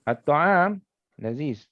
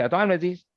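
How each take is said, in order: First: At-ta'am drawn out slowly, a pause, then laziz; slow, separated At-ta'am, then laziz; pause between subject and predicate. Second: At-ta'am laziz in one quick unbroken run; At-ta'am laziz with no break between the words; no pause, run together. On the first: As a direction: stretch At-ta'am, break, drop onto laziz. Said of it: "dia ada putus kejap". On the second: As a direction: join At-ta'am straight onto laziz. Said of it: "dia tak boleh". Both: Shown as a demonstration.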